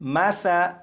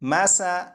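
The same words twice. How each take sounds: First: The consonant is soft, without any hissing. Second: The consonant has a sharp hissing sound. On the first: The speaker calls it right. "सीटी की आवाज़ ख़त्म हो जाएगी" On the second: The speaker calls it wrong. "इस तरह नहीं पढ़ेंगे"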